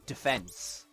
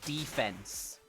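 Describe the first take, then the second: First: The stress is on the second syllable. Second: The stress is on the first syllable. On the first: This is how the speaker says it. The speaker calls it right. "not defense" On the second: This is how many Americans say it. The speaker calls it wrong. "they say defense, They really accentuate the E"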